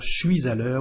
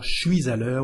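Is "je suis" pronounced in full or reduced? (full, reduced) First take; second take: reduced; reduced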